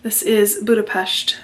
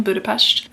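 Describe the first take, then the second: First: Said in the usual way. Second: Budapest with a sh, "Budapesht"; Hungarian pronunciation. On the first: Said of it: "pronounced Budapest". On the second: Shown as a demonstration. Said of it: "I do not have a lisp".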